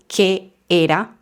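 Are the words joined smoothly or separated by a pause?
pause. A short pause separates the two words. The speaker calls it wrong.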